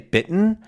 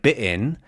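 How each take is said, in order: First: The middle t sound is clearly pronounced. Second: The middle t is skipped with a catch. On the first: "it feels more closed in my accent" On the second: "it almost feels like it's a skip over something"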